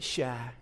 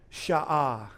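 First: The word is said with a Cajun pronunciation. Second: The word is said with a Hebrew pronunciation. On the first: "In Cajun, you would pronounce it" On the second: "In Hebrew, you would pronounce it"

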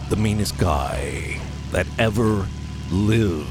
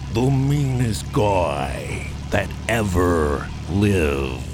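First: The title is said with mild emphasis. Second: The title is said with strong emphasis.

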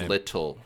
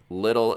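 First: The middle consonant is a crisp T. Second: The middle consonant sounds like a soft D. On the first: "instead of little" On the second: "That's with D's instead of T's"

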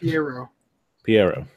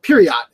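First: The name ends with an open 'o' vowel. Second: The name ends with a 't' sound. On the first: The speaker calls it right. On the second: The speaker calls it wrong. "And he calls it Piriot. And I'm like, dude, it says right there"

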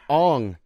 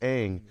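First: The vowel is rounded, like in 'long'. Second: The vowel is open, like in 'bang'. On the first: This is how the movie said the name. The speaker calls it wrong. "how did they announce? Ong" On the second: This is how the show says the name. The speaker calls it right. "in the show it's pronounced Aang"

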